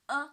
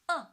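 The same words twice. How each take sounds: First: The pitch stays high and level. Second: The pitch falls sharply from high to low. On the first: "The first tone" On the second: "From five to one"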